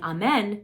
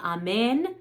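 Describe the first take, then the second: First: The last syllable has an open eh vowel. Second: The last syllable has a closed ay-like vowel. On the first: The speaker calls it wrong. "don't sing amen" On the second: The speaker calls it right. "sing amen"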